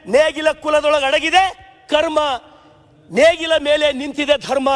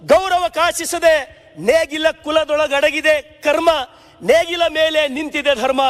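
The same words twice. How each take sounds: First: Slower, forceful declaiming of ನೇಗಿಲ ಕುಲದೊಳಗಡಗಿದೆ ಕರ್ಮ; ನೇಗಿಲ and ಕರ್ಮ declaimed slowly with force; emphatic repeat. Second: Slow, measured verse reading; slow solemn poem reading; poem recitation. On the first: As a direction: hammer the quoted line home to the house. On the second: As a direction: recite the lines evenly, savouring them. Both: Retold or imitated. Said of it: "ರಾಷ್ಟ್ರಕವಿ ಕುವೆಂಪು ಅವ್ರು ಹೇಳಿದ".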